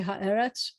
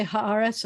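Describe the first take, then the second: First: Haaretz said as ha-EH-retz; E vowel. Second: Haaretz with an open "ah" after Ha, ha-AH-retz; A vowel. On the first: Teacher showing the form never used, Haaretz with "eh". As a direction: put an "eh" after the Ha in Haaretz. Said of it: "I'm never gonna say". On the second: Teacher showing the form always used, Haaretz with "ah". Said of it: "I'm always gonna say". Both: Shown as a demonstration.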